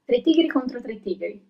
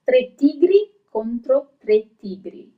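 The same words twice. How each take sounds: First: The phrase is said at a fast pace. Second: The phrase is said at a slow, careful pace. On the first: "when you start to repeat a little bit faster" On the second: "as I have pronounced, it might seem a little bit easy"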